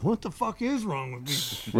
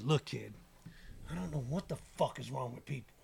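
First: Slow question leaning hard on "is"; stress on IS. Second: Low, soft imitation of a mentor; quiet bemusement. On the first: Retold or imitated. Rapper looking round at people, baffled, stressing "is". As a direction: stretch "is" in drawn-out bafflement at people. His own repeat of mentor's line. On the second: Mentor reassures kid about doubters, quiet and low. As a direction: say it softly, letting the words sink in. Retells mogul's quiet, memorable advice.

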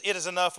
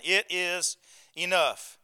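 First: Said in the usual way. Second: Slow, deliberate "It is enough", each word set apart; with emphasis. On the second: Retold or imitated. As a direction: spell out "It is enough" slowly, with a final falling "enough". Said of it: "Says it with emphasis".

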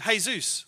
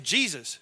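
First: "Jesus" said as "hay-ZOOS"; Spanish pronunciation. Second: Said in the usual way. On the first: Retold or imitated. Waitress mishearing the name, "Jesus" as Spanish hay-ZOOS. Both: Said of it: "She said".

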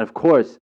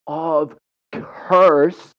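First: Said in the usual way. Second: "of course" stretched long and high, both words drawn out; hammed-up, loud, drawn-out "of course"; exaggerated "of course". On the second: Real, not acted. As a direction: drag out "of course" with heavy emphasis. Exaggerated repeat of own phrase.

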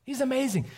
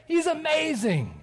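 First: He's amazing, stress on amazing, high falling; repeated emphasis. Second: He's amazing drawn out slow and high; awed emphasis. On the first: Preacher repeating to children, amazing stressed high and falling. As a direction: lean into amazing with a firm fall. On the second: Preacher to children, He's amazing said high and slow. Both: Shown as a demonstration.

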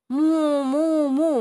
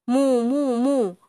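First: High "mu, mu, mu" lowing like a cow; cow moo. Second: "mu, mu, mu" mooed higher like a cow. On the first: Cow teaching the dog, mooing in a higher voice. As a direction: show the dog how a cow moos. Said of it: "Ascolta me". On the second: Cow demonstrating her moo to the dog. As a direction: moo it out for him to copy. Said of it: "Ascolta bene". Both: Shown as a demonstration.

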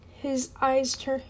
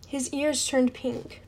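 First: Eyes read in place of ears; misread eyes. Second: Said in the usual way. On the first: Shown as a demonstration. Reader misreads the line aloud, eyes instead of ears. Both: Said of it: "I'm sorry".

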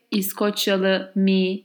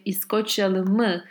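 First: İskoçyalı mi, slow, said as the wrong form; wrong particle. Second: İskoçyalı mı, ending on a falling mı; right particle. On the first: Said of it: "I don't say". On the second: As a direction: demo the right form İskoçyalı mı. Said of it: "I say". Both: Shown as a demonstration.

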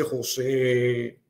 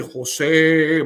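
First: Long drawn-out call of the name; imitated powerful voice. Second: Loud, drawn-out call of the name; imitated stronger voice. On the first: A voice calls the grieving husband at the window, imitated powerful call. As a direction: imitate a mighty voice calling, drawing it out. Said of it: "una voz potente, una voz fuerte que me dice". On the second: The voice calls the husband a second time, imitated loud powerful call. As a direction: boom the name out, imitating a mighty voice. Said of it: "más fuerte esa voz".

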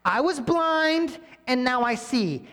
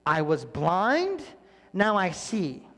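First: Much higher, louder, slow and drawn out; proclaiming testimony. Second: Said in the usual way. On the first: Retold or imitated. Healed man declaring to the Pharisees, triumphant. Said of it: "And he's like". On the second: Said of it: "Just tell the story".

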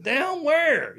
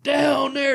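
First: High, loud puzzled question; confused down where, pitched way up; baffled. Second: High, loud punchline bark; hammed-up shouted down there; mock shout. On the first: Retold or imitated. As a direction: blurt it, totally lost. Retelling confused reply. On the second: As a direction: yell it like a wrestling taunt. Scott Hall's punchline again.

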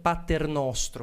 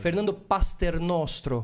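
First: Paternostro said slowly, no s, Pa-ter-nos-tro; slow corrected Paternostro; corrected name. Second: Pasternostro said slowly with an extra s; wrong name. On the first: Shown as a demonstration. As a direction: Paternostro spelled out slow and careful. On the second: Real, not acted. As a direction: Pasternostro stretched out, mispronounced.

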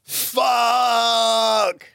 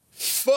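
First: Anguished shout. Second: Read-out swear. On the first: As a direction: howl the word like it hurts. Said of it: "So one more time". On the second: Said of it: "Here we go". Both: Shown as a demonstration.

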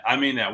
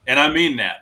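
First: Gentler echo, "mean" still stressed but quieter; "I mean that" with "mean" lightly leaned on, falling; softer repeat. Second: Louder, leaning hard on "mean"; "mean" hit loud and high, falling after; emphatic. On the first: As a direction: repeat it sincerely, calmer. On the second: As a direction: stress the word "mean" so they believe it. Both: Real, not acted.

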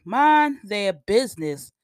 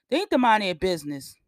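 First: "mind their business" said slowly and louder, leaning on "mind"; slow emphatic "mind their business", stress on "mind"; slow, punched repeat. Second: Said in the usual way. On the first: Real, not acted. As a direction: hit "mind" hard and drag the phrase out.

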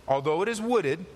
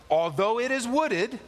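First: Said in the usual way. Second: Higher, slower stress on wooded; raised, slowed preaching emphasis; emphatic repeat. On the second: Acted. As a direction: lean hard into wooded, slowly.

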